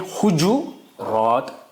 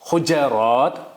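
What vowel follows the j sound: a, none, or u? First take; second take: u; a. First: A u vowel follows the j sound. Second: An a vowel follows the j sound. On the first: "जीम पे दमा" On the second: "फतह"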